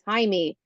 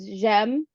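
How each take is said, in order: First: The name is said the Spanish way, Jaime. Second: The name is said the French way, like Jem. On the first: "Siri pronounces it as, as Jaime, which is now my Spanish alter ego" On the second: "It's like Jem in French"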